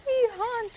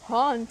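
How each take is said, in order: First: High, loud little ghost voices; little ghosties. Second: Lightly voiced father ghost giving the order; daddy ghost. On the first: Little ghosts answering their daddy, high eager cry. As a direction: squeal it like tiny eager ghosts. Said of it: "cried the two". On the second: Daddy ghost calling to his ghosties, lightly voiced. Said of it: "said the daddy". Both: A narrator's reading.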